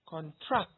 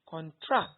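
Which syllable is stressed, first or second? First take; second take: second; second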